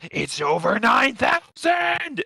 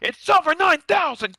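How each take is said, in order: First: It imitates the Ocean dub Vegeta's voice. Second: It imitates the Funimation dub Vegeta's voice.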